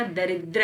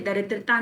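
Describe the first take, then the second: First: दरिद्र ending on "dra"; no "-taa" at the end of दरिद्र; the accepted form दरिद्र; correct short form. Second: दरिद्रता with a final "taa"; the mistaken form दरिद्रता; wrong long form. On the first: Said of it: "दरिद्र होता है". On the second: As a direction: add "-taa" after "daridra" in दरिद्रता. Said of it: "दरिद्रता नहीं होता". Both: Shown as a demonstration.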